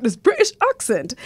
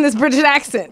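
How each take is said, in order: First: Hammed-up British pronunciation; mock British accent. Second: Said in the usual way. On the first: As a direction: put on a British accent, broad "ah" in accent. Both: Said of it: "I thought I had a British accent".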